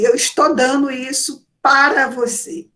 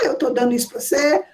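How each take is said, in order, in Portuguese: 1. Todas as palavras são pronunciadas completamente e com cuidado. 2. As palavras são rápidas, encurtadas e emendadas umas nas outras. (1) "eu nunca vou dizer assim" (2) "numa conversa rápida"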